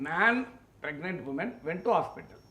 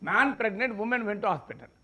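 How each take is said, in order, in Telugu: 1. విరామం 'man' అనే పదం తర్వాతే వస్తుంది. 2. విరామం 'pregnant' అనే పదం తర్వాతే వస్తుంది. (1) "ఒక మనిషి ఒక గర్భిణీ స్త్రీ ఆసుపత్రికి వెళ్ళారు" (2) "మగవాడు గర్భం దాల్చాడు, మహిళ ఆసుపత్రికి వెళ్ళేది"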